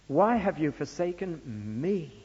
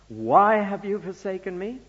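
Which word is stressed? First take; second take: me; why. First: The stress falls on the word me. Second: The stress falls on the word why.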